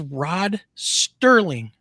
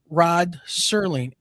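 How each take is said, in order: First: The surname has a t sound after the s. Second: The surname has no t sound after the s. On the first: This is the version people grew up hearing. The speaker calls it wrong. "when I grew up ... it was always Rod Sterling" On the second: This is the name as it actually is. The speaker calls it right. "not Rod Serling"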